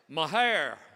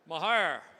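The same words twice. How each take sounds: First: The word sounds like Ma-hair. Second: The word sounds like Ma-hair.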